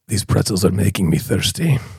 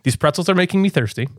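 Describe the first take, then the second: First: It is said in a gravelly voice. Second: It is said in a plain voice.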